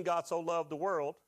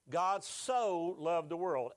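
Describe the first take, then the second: First: Said in the usual way. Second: Slow, drawn-out, with so leaned on hard; preacher slowing the verse to single out so; stress on so. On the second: Shown as a demonstration. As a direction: linger on so as if spelling it out. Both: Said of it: "S O, right?".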